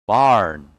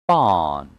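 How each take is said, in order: First: "Barn" with the R sounded; American pronunciation. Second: "Barn" with long "ah", silent R; British pronunciation. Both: Shown as a demonstration. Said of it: "And American English will be".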